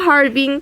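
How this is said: The name has a Chinese-style pronunciation.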